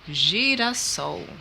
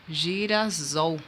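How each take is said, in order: First: The middle consonant is a voiceless s sound. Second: The middle consonant is a voiced z sound. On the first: The speaker calls it right. "para que se tenha o som de S mesmo, né? E não som de Z" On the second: The speaker calls it wrong. "ficaria bem equivocado se a gente colocasse assim"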